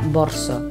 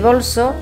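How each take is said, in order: First: An r sound comes before the s. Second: An l sound comes before the s. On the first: "se pronuncia borso" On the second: "en lugar de bolso"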